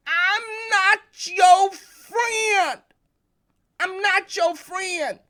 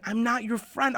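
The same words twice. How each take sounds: First: Much higher, loud and very slow, drawn-out yell; furious shout. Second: "not your" said clearly as two separate words, not "nacho"; clear pronunciation. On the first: Retold or imitated. Boy shouts at his brother who took the bat, slow furious yell. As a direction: hurl it at him in a rage. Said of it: "I was angry and I was furious". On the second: Shown as a demonstration. Speaker clears up a joke mishearing, saying "not your" distinctly. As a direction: spell out "not your friend" so no one hears "nacho". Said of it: "I wasn't saying I was friends with nachos".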